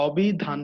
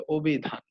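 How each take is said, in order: First: অভিধান starting with an open ɔ, "ɔbhidhan"; wrong open vowel. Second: অভিধান starting with a closed o, "obhidhan"; correct closed vowel. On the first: Teacher warns students off the open-vowel অভিধান. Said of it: "এটা অভিধান হবে না". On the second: Teacher gives students the right form, closed-vowel অভিধান. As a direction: say অভিধান properly, first vowel rounded to o. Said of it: "এটা হবে অভিধান". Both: Shown as a demonstration.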